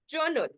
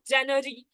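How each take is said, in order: First: The word sounds like journal. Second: The word sounds like January. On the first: The speaker calls it right. "It's like journal. This is the pronunciation of the word" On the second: The speaker calls it wrong. "some students they'll be pronouncing it as January"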